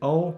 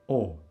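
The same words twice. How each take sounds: First: The vowel is said the English way. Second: The vowel is said the Albanian way. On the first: The speaker calls it wrong. "In Albanian we don't say O" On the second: The speaker calls it right. "we say O"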